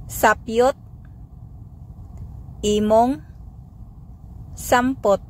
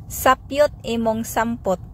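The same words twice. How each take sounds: First: Sapyot, imong, sampot said one by one with pauses; word by word. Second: Said in the usual way. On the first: Shown as a demonstration. Teacher drilling the phrase for learners, word by word. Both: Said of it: "Sample phrases".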